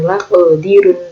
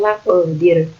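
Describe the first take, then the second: First: The word ends with an added 'un' syllable. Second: The word stops on a bare final 'r'. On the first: The speaker calls it wrong. "bukan laqdirun" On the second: The speaker calls it right. "tapi laqdir"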